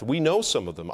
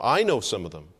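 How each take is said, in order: First: Said in the usual way. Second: "I" raised above the rest, then falling; stress on I. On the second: Real, not acted. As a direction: punch the word "I", let the rest drop. Corrects we to I.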